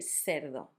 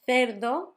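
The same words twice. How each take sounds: First: The word begins with an s sound. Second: The word begins with a th sound. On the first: "You can always say as an S" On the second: "instead of making the th sound"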